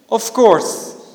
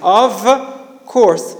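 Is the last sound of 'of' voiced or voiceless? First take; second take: voiceless; voiced. First: The final sound of of is a voiceless f. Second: The final sound of of is a voiced v. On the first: "it becomes of course in rapid speech" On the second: "normally it's"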